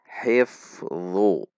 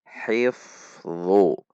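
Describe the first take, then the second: Both takes have the same delivery.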